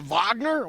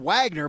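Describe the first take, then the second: First: The name is said unlike its English spelling. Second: The name is said as its English spelling suggests. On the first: "I'm supposed to pronounce it Wagner?" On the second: "It's spelled Wagner"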